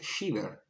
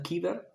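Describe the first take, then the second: First: The word begins with an sh sound. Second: The word begins with a k sound. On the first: This is the English pronunciation. "del inglés shiver" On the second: This is the Italian pronunciation. "en italiano si pronuncia kiver"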